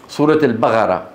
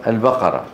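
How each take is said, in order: First: البقرة with ق said as gh; Sudanese Qaf. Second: Said in the usual way. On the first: Shown as a demonstration. Teacher imitating Sudanese speakers, ق turned to gh. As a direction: say البقرة as al-baghara. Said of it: "القاف ينطقونها إيه؟". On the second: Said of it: "شو يعني؟".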